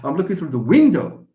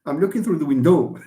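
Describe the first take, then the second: First: The stress is on the first syllable. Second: The stress is on the second syllable. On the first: The speaker calls it right. "stress falls on the first syllable" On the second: The speaker calls it wrong. "تضحكوا علي لو قلت نهضر هكا"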